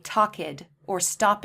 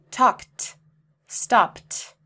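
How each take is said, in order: First: Talked as talk-id, stopped as stop-id, mistaken; talked and stopped wrongly with id; wrong extra syllable. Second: Talked and stopped end in crisp t, louder; one-syllable talked and stopped; correct t ending. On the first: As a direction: show the common mistake. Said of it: "We don't say". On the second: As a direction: model the right version. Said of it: "We don't say talked or stopped". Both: Shown as a demonstration.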